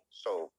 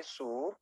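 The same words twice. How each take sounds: First: "soap" with a gliding oh vowel, falling; English soap. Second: "soup" with a long oo vowel; English soup. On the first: Teacher points at the second word, soap. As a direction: say "soap" as sop, rounded. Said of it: "yang ini soap". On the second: Teacher points at the first word, soup. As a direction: say "soup" as sup, rising. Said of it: "Yang ini soup". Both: Shown as a demonstration.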